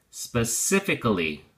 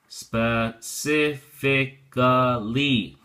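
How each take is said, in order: First: Said in the usual way. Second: Specifically drawn out very slowly, every syllable spe-ci-fi-ca-lly given full weight; slow careful model. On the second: Shown as a demonstration. Teacher drilling the word for students, very slow and clear. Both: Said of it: "The first is the adverb form".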